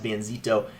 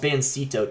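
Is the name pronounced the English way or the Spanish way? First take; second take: Spanish; English. First: The name is said with a Spanish pronunciation. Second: The name is said with a plain English reading. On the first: "if you speak Spanish, you pronounce it as Banzito" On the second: "it's Bancito technically"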